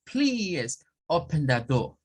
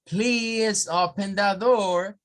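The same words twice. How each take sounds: First: Slow British accent, R dropped in door; British accent request. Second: Slow, higher American accent with a clear R; American accent request. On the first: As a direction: ask it like a Brit. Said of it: "escuchar a un británico". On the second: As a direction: ask politely in American English. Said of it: "eso es inglés norteamericano". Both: Shown as a demonstration.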